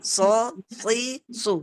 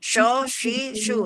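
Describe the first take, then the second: First: The consonant is a thick, hissing s sound. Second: The consonant is a hushing sh sound. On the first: The speaker calls it right. "seperti itu ya" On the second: The speaker calls it wrong. "itu yang salah"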